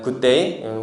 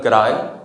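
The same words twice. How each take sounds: First: It has a standard accent with an 'ay' vowel. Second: It has an Australian accent with an 'ah'-like vowel. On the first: "뭐 누구 얘기하면은" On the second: "호주는 good day 이런 식으로"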